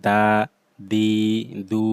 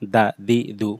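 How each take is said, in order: First: The vowels are drawn out long. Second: The vowels are short and quick. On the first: The speaker calls it wrong. "এরকম টান হবে না" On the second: The speaker calls it right. "তাড়াতাড়ি পড়তে হবে"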